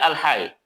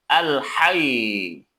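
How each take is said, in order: First: The final doubled consonant is said lightly, without emphasis. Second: The final doubled consonant is pressed with emphasis. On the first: The speaker calls it wrong. "Bukan dibaca al-hayy" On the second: The speaker calls it right. "Jadi ada penekanan"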